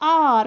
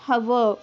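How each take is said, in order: First: The word starts with a vowel, no h. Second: The word starts with an audible h sound. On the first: The speaker calls it right. "H silent है इधर H, so we pronounce it as" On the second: The speaker calls it wrong.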